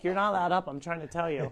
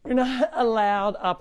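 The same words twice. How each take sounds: First: A hint of Brooklyn's voice, much softer; retelling what Brooklyn told the rooster, softly; quoting Brooklyn softly. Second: Slow, firm telling-off; telling the rooster off for getting on the counter; scolding the rooster. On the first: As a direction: softly mimic the girl telling the rooster off. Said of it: "And she's like". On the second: Real, not acted. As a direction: lay down the rule slowly to the rooster. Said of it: "All right, Rooster".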